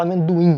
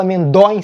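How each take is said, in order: First: Amendoim said naturally, with the ending closing toward "dui"; correct pronunciation. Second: Amendóim with the stress pushed onto the ó, the wrong way; wrong pronunciation. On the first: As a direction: say amendoim the everyday way. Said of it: "você fala amendoim". (amendoim pronunciado do jeito certo) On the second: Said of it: "Você não fala amendóim". (amendóim com acento errado no ó) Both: Shown as a demonstration.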